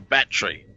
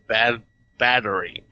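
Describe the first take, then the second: First: It is said in an Australian accent. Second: It is said in an American accent. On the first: "I say battery" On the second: "which is the American"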